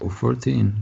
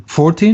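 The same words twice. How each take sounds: First: Said in the usual way. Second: "Fourteen" higher, with a rising question tune. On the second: Real, not acted. Game master checking the save number, questioning "Fourteen". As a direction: ask "Fourteen" back with the pitch lifted.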